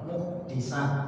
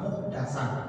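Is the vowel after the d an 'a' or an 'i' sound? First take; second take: i sound; a sound. First: The vowel after the d is an i sound. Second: The vowel after the d is an a sound. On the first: The one who shelters a wrongdoer. "dalnya di kasrah" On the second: The one who is sheltered. "diriwayatkan di fathah"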